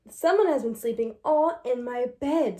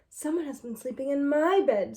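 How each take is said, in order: First: It is said in a big, deep voice. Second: It is said in a middle-sized voice.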